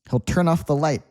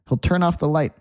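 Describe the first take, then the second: Both takes have the same delivery.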